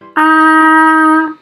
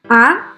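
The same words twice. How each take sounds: First: The pitch stays high and level. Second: The pitch rises from middle to high. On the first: "use our first vowel with a tone mark to practice" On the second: "use the first vowel to practice the second tone"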